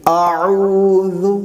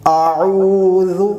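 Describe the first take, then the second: No difference in how they are said.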